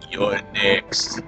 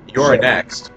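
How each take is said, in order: First: It is said in a deep, accented action-hero voice. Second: It is said in the speaker's ordinary voice.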